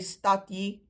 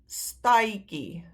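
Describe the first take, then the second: First: A clear d is followed by a j sound. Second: The vowel glides to i, then a k sound. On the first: The speaker calls it wrong. "we don't say stadjie" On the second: The speaker calls it right. "we say stai"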